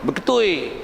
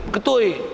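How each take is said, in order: Both takes have the same delivery.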